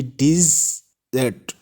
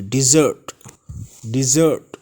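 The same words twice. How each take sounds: First: डिजर्ट broken as "diz-zat", open second vowel; wrong pronunciation. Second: डिजर्ट said "di-ZURT"; correct pronunciation. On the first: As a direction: say डिजर्ट in two parts, "DIZ-et". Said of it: "इसकी गलत pronunciation होगी". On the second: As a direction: say डिजर्ट joined up, with an "ur" second vowel. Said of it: "right pronunciation है". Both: Shown as a demonstration.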